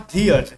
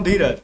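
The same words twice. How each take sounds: First: धीरज with the R dropped, drawn out; British-style silent R. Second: Said in the usual way. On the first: Shown as a demonstration. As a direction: say धीरज as "dhee-aj", leaving the R silent. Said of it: "र को silent कर देगा". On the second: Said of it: "मैं बोलता हूँ धीरज".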